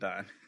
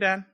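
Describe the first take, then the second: First: The name is said with a Dutch vowel. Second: The name is said with an American vowel. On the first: The speaker calls it right. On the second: The speaker calls it wrong.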